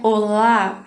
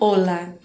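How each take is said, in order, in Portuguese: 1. A tônica está na última sílaba. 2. A tônica está na primeira sílaba. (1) "para lembrar que não é olá" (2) "a sílaba mais forte é o o"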